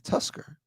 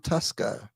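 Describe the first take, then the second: First: It is said in an American accent. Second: It is said in a local, non-American accent. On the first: This is how the customer says it. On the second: This is how the bar staff say it.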